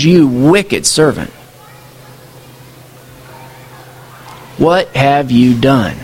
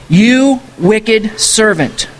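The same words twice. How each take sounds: First: Lower, slow, heavy verdict; grave master. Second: Slow, stern rebuke; stern master. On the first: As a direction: drop low and deliver the sentence slowly. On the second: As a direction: drag out each word like a judge. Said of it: "his master ... said". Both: Acted.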